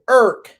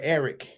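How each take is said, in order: First: The name is squeezed into one syllable. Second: The name is said with two syllables. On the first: "In D C, we say Irk" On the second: "we don't say the word Eric"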